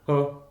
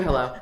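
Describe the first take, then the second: First: Low, super-fast hello, barely a word; Josh Hartnett. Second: Said in the usual way. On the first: Retold or imitated. Imitating the star picking up a call, abrupt hello. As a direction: answer in one rushed, swallowed syllable. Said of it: "Like, so fast". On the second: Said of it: "Like that, not even".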